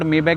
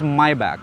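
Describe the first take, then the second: First: The first word sounds like 'may'. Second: The first word sounds like 'my'. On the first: The speaker calls it wrong. "अब जैसे मैं मे back बोलता हूँ" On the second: The speaker calls it right. "It's माई back"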